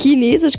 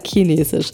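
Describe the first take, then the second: First: It is said in standard German pronunciation. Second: It is said in regional southern German pronunciation. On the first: This is the form the speaker cannot say naturally. "Chinesisch kann ich nicht sagen" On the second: This is the form the speaker normally uses. "ich sage Chinesisch"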